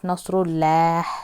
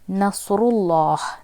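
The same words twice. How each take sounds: First: The L sound is light and thin. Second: The L sound is heavy and full. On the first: The speaker calls it wrong. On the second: The speaker calls it right.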